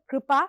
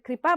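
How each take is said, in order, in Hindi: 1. मूर्धन्य r के लिए जीभ पीछे मुड़ती है। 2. इसमें सादा r है, उसके बाद i। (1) "तो वो जीभ थोड़ा ज्यादा पीछे तक आ जाती है" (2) "अगर कृपा बोलेंगे तो उसमें र और ई की मात्रा का द्योतन होता है"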